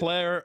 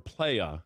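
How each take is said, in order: First: The word ends with an 'er' sound. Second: The word ends with an 'ah' sound.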